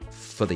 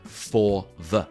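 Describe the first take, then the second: First: The two words are shortened and run together. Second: Both words are said fully and separately. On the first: The speaker calls it right. "They always say" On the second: The speaker calls it wrong. "You'll very rarely hear native English speakers, if they're speaking normally, say"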